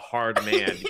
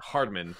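First: It sounds like two separate words. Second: It sounds like one single name. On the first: It describes a tough man. The speaker calls it wrong. "you don't pronounce it as like a hard man" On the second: It is a person's name. The speaker calls it right. "You pronounce it as Hardman"

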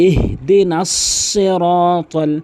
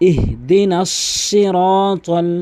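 Both takes have the same delivery.

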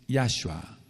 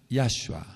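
No difference in how they are said.

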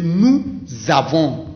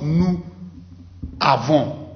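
First: The final consonant links into the next vowel. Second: The words are separated with no linking consonant. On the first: The speaker calls it right. "Ça, c'est une liaison aussi. ... So we say nous avons" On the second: The speaker calls it wrong. "not nous avons"

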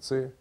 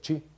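First: The word begins with a 'ts' sound. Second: The word begins with a 'ch' sound. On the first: This is the Russian way of saying it. "По-русски это ци" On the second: This is how it is said in Shanghai. "В Шанхае говорят чи"

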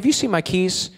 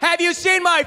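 First: The question is asked in a calm tone. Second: The question is asked in an angry tone. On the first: It is the first time the speaker asks. "this is the first time I say this to her" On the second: The speaker has asked twice before and been ignored. "Here's the third time I say it"

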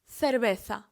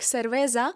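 First: The sound before the final a is th. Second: The sound before the final a is z. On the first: The speaker calls it right. "ми скажемо сервеса" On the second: The speaker calls it wrong. "Це слово не вимовлятиметься як сервеза"

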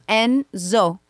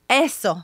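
First: The name is said with an 'n' sound. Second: The name is said without an 'n' sound. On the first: This is the name as the parents intend it. The speaker calls it right. "No, mommy, it's Enzo" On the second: The name is mangled as if it were hard to say. The speaker calls it wrong. "pretending not to be able to pronounce them"

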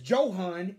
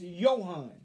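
First: The name begins with a J sound. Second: The name begins with a Y sound. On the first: The speaker calls it wrong. "he don't say his name is Johan" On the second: The speaker calls it right. "it's Johan"

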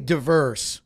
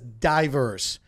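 First: The first syllable does not sound like 'die'. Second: The first syllable sounds like 'die'. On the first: The speaker calls it right. "I say diverse" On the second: The speaker calls it wrong. "Ruben says diverse, ... I don't like the word die"

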